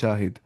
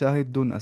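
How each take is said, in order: First: The word ends without the -un sound. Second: The word ends with an added -un sound. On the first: This is the form used when stopping. "हम वहां पे पॉज देते हैं, फिर बोलते हैं शाहिद" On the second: This is the full form of the word. "होता है शाहिदुन असल में"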